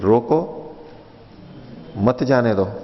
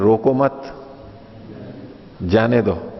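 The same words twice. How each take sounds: First: The pause comes right after रोको. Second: The pause comes right after मत.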